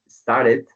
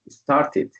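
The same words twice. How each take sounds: First: It is said with an American accent. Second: It is said with a British accent. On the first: "But in the U S, as you said, it says" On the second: "In the U K or British, people usually say"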